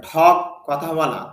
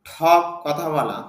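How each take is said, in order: The two takes are said the same way.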